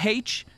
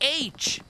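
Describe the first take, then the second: First: The letter name starts with an h sound. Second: The letter name starts with a vowel sound. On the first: "I put the H in in the word" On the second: "as Americans like to pronounce it"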